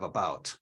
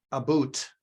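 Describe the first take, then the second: First: Said in the usual way. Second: "boot" with a long oo in place of the ow of about; "a boot", oo vowel held clear; imitated Canadian-style vowel. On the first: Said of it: "instead of about". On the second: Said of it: "just like Garnett struggles with".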